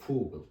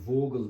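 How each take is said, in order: First: The word begins with an F sound. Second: The word begins with a V sound. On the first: The speaker calls it right. "V harfi başta olduğu zaman F gibi okun" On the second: The speaker calls it wrong. "Vogel değil"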